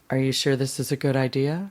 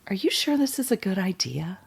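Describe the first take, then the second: First: It is said in a lower, deeper voice. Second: It is said in a normal voice.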